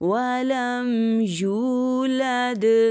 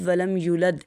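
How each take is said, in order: First: The vowel after the y is drawn out. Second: The vowel after the y is short. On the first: The speaker calls it right. "या को थोड़ा खींच के अदा करेंगे" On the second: The speaker calls it wrong. "अक्सर लोग पढ़ते हैं"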